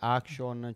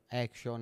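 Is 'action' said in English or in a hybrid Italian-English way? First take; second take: hybrid; English. First: The word is pronounced half Italian, half English. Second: The word is pronounced the English way. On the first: The speaker calls it wrong. "cioè non è né italiano né inglese, per cortesia" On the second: The speaker calls it right. "Action è inglese"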